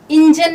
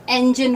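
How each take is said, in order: First: "इंजन" starting with ih: IN-jan; slow "इंजन" with an i first; mispronounced engine. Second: "इंजन" starting with eh: EN-jin; right "इंजन", short e first; correct engine. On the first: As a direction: show the wrong "इंजन", opening like "in". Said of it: "ये इंजन नहीं होता". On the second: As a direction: model "इंजन" opening like "en". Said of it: "ये इंजन होता है". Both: Shown as a demonstration.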